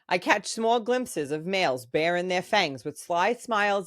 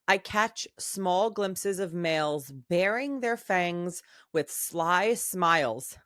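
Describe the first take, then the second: First: It is read in the reader's ordinary accent. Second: It is read in a put-on, unusual accent.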